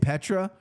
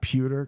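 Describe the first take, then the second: First: The first syllable sounds like 'pet'. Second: The first syllable sounds like 'pew'. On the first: The speaker calls it wrong. "I say Petra" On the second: The speaker calls it right. "they kept saying uh, Pewter"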